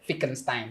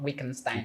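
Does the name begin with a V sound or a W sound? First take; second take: V sound; W sound. First: The name begins with a V sound. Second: The name begins with a W sound. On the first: The speaker calls it right. "they pronounce W as V" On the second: The speaker calls it wrong. "not Wittgenstein"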